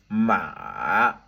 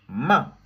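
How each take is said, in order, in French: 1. Le ton descend bas puis remonte. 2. Le ton chute brusquement du haut vers le bas. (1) "ça descend en bas et puis ça remonte en haut" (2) "ça vient du haut, ça descend en bas... c'est brusque"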